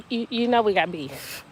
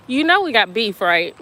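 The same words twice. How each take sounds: First: Said in the usual way. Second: Louder mock beef call-out; loud playful teasing. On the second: Real, not acted. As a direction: tease the friend loudly. Teasing a viewer.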